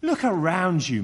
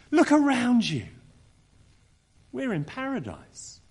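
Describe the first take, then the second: First: Said in the usual way. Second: Bright, eager invitation. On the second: Acted. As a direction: urge the snake to see paradise. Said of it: "Here's what she could have said".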